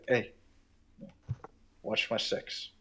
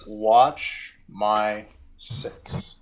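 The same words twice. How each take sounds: First: Hushed, unvoiced aside; whisper. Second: Drawn out word by word; very slow, each word set apart; slow signaling. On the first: Player whispers to Kaladin to watch their back, whispered. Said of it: "I'll just whisper". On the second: Acted. Player signals Kaladin with a hand motion, slowly and deliberately.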